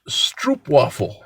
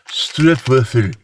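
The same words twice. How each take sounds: First: It is said with an American accent. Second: It is said with a Dutch-style accent. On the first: "that was a very Americanized way of saying it" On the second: "when I heard how it's pronounced, it's like"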